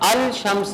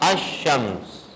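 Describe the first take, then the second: First: The L sound of the article is pronounced. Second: The L sound is dropped into the next sound. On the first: The speaker calls it wrong. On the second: The speaker calls it right.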